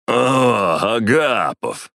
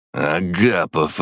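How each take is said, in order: First: Put-on high, loud drunken greeting; slurring drunk man calling out. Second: Put-on slow, drunk, each syllable careful. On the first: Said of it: "раздался пьяный голос Орлова". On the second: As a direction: spell out each sound like a drunk. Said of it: "Тщательно выговаривая каждый слог". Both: A narrator's reading.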